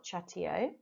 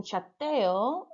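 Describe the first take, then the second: First: Chateo with soft sh start; wrong English way. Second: Chateo with ch as in church; correct Spanish. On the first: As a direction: chateo said sha-TEE-oh, quieter. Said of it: "and not". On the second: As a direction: chateo said cha-TEH-o with hard ch. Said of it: "it should have been". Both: Shown as a demonstration.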